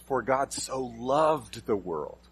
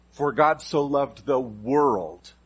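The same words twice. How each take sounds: First: For God so "loved" the world, loved drawn out slow; stress on loved. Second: Slow, with God leaned on; slow and weighty on God; stress on God. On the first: Preacher slowing on loved for the congregation. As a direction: linger on loved. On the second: Preacher slowly stressing God to the congregation. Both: Shown as a demonstration. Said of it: "with just emphasizing a different word".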